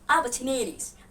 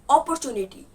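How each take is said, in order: First: The first vowel is said with spread lips. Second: The first vowel is a rounded O sound. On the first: The speaker calls it right. "They pronounce it opportunities" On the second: The speaker calls it wrong. "Don't pronounce opportunity"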